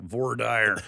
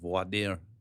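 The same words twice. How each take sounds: First: It is said with plain American-English sounds. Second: It is said with French-style sounds. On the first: "in Wyoming they call it voir dire" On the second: "depending on how good your French accent is"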